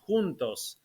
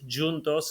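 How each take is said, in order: First: The word is pronounced the Spanish way. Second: The word is pronounced the Portuguese way.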